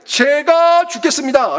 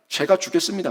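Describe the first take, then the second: First: "제가 죽겠습니다" drawn out slowly, higher and louder, with the stress on 제가; preacher declaring Jonathan's readiness to die, slow and loud; emphatic confession. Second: Said in the usual way. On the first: Shown as a demonstration. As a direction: proclaim "제가 죽겠습니다" slowly and loudly, as a preacher's resolve. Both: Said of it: "그냥 고백하는 거예요".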